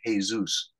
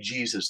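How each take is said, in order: First: The name is pronounced the Spanish way. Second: The name is pronounced the English way. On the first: "they say Jesus" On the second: "Spanish people don't say Jesus"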